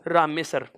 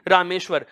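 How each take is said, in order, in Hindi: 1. बीच की ध्वनि एक सादा दंत्य 's' है। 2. बीच की ध्वनियाँ 'shw' हैं, यानी एक तालव्य संघर्षी ध्वनि और w। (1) "इसकी जगह दंत्य वाला सकार" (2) "यहां पर तालव्य सकार था"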